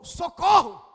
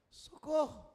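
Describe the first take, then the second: First: It sounds like an urgent exclaimed cry. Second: It sounds like a questioning plea.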